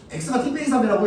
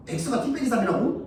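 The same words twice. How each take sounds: First: Said in the usual way. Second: Puzzled reread. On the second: Shown as a demonstration.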